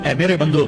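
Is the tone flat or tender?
flat. It is said in a flat, plain tone. The speaker calls it wrong.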